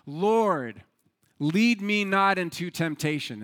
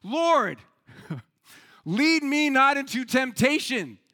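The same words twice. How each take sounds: First: Acted prayer, drawn out and projected; the man's first plea to God; earnest prayer. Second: Loud, high shout to God; acted frantic shouted plea; shouted prayer. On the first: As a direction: pray it out with weight on each phrase. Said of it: "and he prayed". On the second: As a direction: bellow the prayer in comic desperation. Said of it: "and he shouts".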